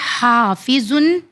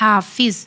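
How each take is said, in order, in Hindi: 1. शब्द का अंत नासिका वाला -un है। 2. शब्द आखिरी व्यंजन पर रुक जाता है।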